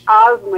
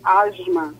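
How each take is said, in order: First: Plain 'a' before the s, no glide. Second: An 'i' glide and 'sh'-like s follow the a. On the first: This is how people from Pernambuco say it. "A gente diz asma" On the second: This is how people from Rio de Janeiro say it. "vocês dizem asma ... tem um izinho aí ... Um I com um X"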